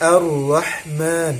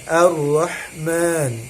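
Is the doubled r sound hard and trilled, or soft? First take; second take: soft; soft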